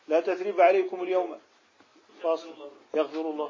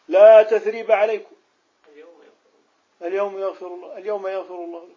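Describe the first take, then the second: First: The pause comes after alyawm. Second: The pause comes before alyawm. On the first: Today is tied to the absence of blame. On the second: Today is tied to the forgiving.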